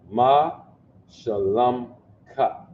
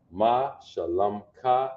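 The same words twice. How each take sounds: First: Ma, Shalom, Ka spoken one part at a time with pauses between; broken into parts. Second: Said in the usual way. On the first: Shown as a demonstration. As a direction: say Ma, pause, Shalom, pause, Ka, each part clear on its own.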